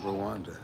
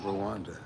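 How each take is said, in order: First: The R and W are said separately. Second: The same.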